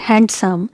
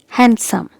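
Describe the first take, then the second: First: The D sound is pronounced in the word. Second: The D sound is silent in the word. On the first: The speaker calls it wrong. "So it's not handsome" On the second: The speaker calls it right. "letter D is silent"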